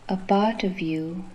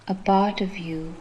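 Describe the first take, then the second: No difference in how they are said.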